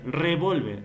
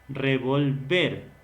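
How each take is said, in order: First: The stress is on the middle syllable. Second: The stress is on the last syllable. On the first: It is a weapon. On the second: To mix certain elements or substances.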